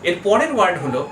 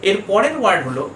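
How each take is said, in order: No difference in how they are said.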